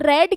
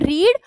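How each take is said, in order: First: The vowel is short, like red. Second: The vowel is long, like reed. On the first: It is the past tense. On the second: It is the present tense.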